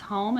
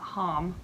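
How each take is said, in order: First: The vowel is long, like its letter name. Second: The vowel is short, as in 'hot'. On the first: The speaker calls it right. "so it's making the vowel long or short? Long" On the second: The speaker calls it wrong. "not home"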